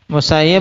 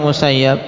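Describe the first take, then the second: First: The vowel before the final b is i. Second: The vowel before the final b is a. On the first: The speaker calls it right. "Yang benar ikhwan, Ibn al-Musayyib dengan mengkasrah" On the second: The speaker calls it wrong. "banyak beredar juga pembacaan atau membaca dengan Musayyab"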